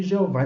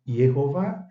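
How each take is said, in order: First: Jeová the Portuguese way, ending on stressed VÁ; Portuguese pronunciation. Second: Yehová with a Y glide, ending on stressed VÁ; Hebrew-style pronunciation. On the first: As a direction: pronounce Jeová as in Portuguese, opening on a zh sound. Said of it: "Jeová em português". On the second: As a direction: say Yehová with an opening Y sound. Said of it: "nós preferimos a pronúncia Yehová". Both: Shown as a demonstration.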